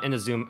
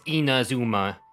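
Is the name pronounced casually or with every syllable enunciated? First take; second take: casually; enunciated. First: The name is said casually, syllables blurred. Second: The name is said with every syllable enunciated. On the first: The speaker calls it wrong. "So it's not Inazuma" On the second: The speaker calls it right. "they like super pronounce the word"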